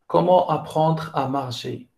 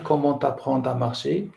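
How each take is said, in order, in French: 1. Comment et apprendre se disent sans liaison. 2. Comment et apprendre se disent avec une liaison. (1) "on ne fait pas de liaison" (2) "Je ne peux pas dire"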